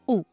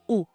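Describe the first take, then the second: First: The vowel is a pure 'oo' sound. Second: The same.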